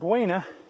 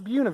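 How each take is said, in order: First: The word is said the non-local way. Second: The word is said the local way. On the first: The speaker calls it wrong. "I was mispronouncing it. It's not Buena" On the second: The speaker calls it right. "The locals call it Buena Vista"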